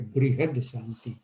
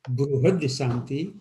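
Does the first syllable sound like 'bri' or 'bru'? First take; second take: bri; bru. First: The first syllable has a 'ri' sound. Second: The first syllable has a 'ru' sound. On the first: This is the regional form used in another region. "In North India, they usually say" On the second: This is the regional form used in the speaker's home region. "in Gujarat, we usually call it"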